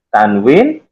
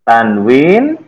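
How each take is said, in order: Both takes have the same delivery.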